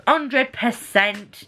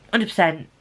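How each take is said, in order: First: HUNDRED PERCENT drawn out very slowly, higher; slow, emphatic. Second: Said in the usual way. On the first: Real, not acted. Reviewer giving a verdict on a book, slow emphatic "Hundred percent". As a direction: stretch out "Hundred percent", word by word.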